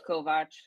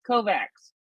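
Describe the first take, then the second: First: The name is said the original way. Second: The name is said the American way. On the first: The speaker calls it right. "I know it's Kovac" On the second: The speaker calls it wrong. "they pronounce it Kovacs here in the United States"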